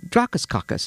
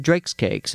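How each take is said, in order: First: "Dracaskakis" run together as one Greek-sounding word, high; Greek accent. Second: Said in the usual way. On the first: Retold or imitated. Greek customer repeating his order to the deli clerk, Greek accent. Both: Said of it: "It was a Greek guy".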